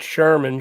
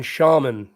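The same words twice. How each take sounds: First: "Sherman" with an er sound in the first syllable; first vowel r-coloured, as in "Sherman"; mispronounced shaman. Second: "shaman" with an open ah and no r; corrected pronunciation. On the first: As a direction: say the wrong version as "Sherman". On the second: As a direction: say "shaman" as SHAH-mun. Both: Shown as a demonstration. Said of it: "Not Sherman, shaman".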